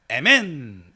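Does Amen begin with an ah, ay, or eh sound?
eh. The first vowel is 'eh', as in eh-men. "스페인어로도 에멘 이러고 있고요"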